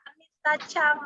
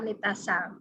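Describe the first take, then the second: First: The title after the name begins with ch. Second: The title after the name begins with s. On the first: "terdengar di dalam pengucapan bahasa Jepang memang sedikit ada chang" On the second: "sebenarnya itu adalah Anita Sang"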